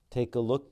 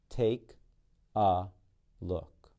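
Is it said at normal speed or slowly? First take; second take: normal speed; slowly. First: It is said at normal speed. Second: It is said slowly and deliberately.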